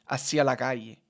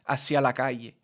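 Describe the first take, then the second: No difference in how they are said.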